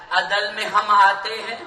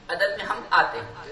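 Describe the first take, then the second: First: آتے lifted as a searching question; probing rhetorical question; questioning take. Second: Soft concluding statement; quiet answer. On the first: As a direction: ask "عدل میں ہم آتے ہیں؟" to the audience, with a touch of laughter. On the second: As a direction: answer "عدل میں ہم آتے ہیں۔" quietly, almost to yourself. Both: Shown as a demonstration.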